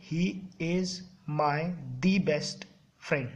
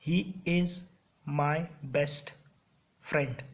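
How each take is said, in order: First: "the" dragged out slowly as the error; mock wrong sentence, slowed on "the"; wrong version, slowed. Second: Said in the usual way. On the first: Shown as a demonstration. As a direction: stretch "the best friend" to show the mistake. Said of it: "नहीं बोलते ना ऐसे". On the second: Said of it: "बोलते हो आप लोग".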